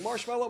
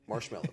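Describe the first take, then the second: First: The word is screamed in panic. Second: The word is whispered softly.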